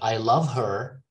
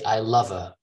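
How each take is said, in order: First: The word 'her' is said fully with its h. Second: The word 'her' drops its h and is reduced. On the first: "Instead of I love her" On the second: "they say I love her"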